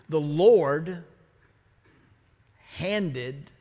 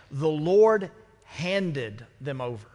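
First: Long pause after Lord and after handed; a weighty silence after Lord; dramatic pause. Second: The Lord handed them over said slowly, no long gaps; solemn, slow, stressing Lord; slow, weighty line. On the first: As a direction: let The Lord hang, then slowly say handed. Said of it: "I, I pause for effect". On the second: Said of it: "I pause for effect". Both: Shown as a demonstration.

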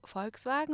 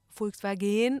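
First: Said in the usual way. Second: "Volkswagen" slow, with stretched foreign vowels, "Fulksvageen"; imitated Arabic-style pronunciation. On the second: Trying again with an Arabic speaker, "Volkswagen" in slow foreign pronunciation. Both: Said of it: "Und ich so".

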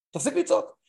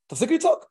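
First: Said in the usual way. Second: High and loud, mock command to stop; mock shout. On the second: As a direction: bark it like a sharp order. Acting advice to angry spouse.

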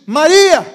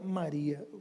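First: Loud, high call of a name. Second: Low, soft call of a name; gentle naming. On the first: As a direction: call her name out strongly, as Jesus to Mary. Acting Jesus calling Mary's name. (chamado em voz alta) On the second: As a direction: say her name quietly, pitched well down. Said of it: "quando ele falou o nome dela". (nome chamado baixinho, em tom grave) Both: Acted.

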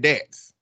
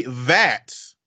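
First: "that's" said as "dat's", with a d; Southern dialect th. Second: "that's" with a clear, drawn-out th; careful standard th. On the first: Correcting the co-host's speech, "that's" as "dat's". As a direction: open "that's" on a hard d. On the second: Showing what wasn't said, "that's" with full th. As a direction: slowly sound the th in "that's". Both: Shown as a demonstration. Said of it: "which you didn't say that's".

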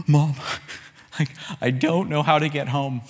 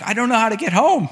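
First: Mock gasping sobs between halting words; retold tearful child. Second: High, loud mock wail; retold bawling child. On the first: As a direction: play a scared kid catching breath. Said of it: "I just burst into tears". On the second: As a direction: imitate a kid crying out in panic. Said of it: "I'm just bawling".

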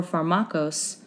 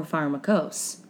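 First: Pharmakos said slowly as far-MAH-kos; alternative pronunciation. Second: Pharmakos said slowly as FAR-muh-kos; slow pharmakos, middle vowel reduced to "muh"; alternative pronunciation. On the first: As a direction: try pharmakos with an open "mah" in the middle. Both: Shown as a demonstration. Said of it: "I don't know how to say it".

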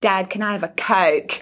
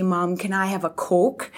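First: Put-on a light Australian accent, toddler asking dad for a Coke. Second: Put-on a light Scottish accent, toddler asking mum for a Coke. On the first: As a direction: imitate an Aussie accent lightly. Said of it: "talk to my partner with an Australian accent". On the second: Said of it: "talk to me with a Scottish accent".

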